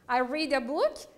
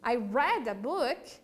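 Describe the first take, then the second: First: The word read does not sound like red. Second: The word read sounds like red. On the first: The reading happens now or habitually. "eu leio um livro" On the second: The reading happened in the past. "É a mesma pronúncia da cor vermelha em inglês"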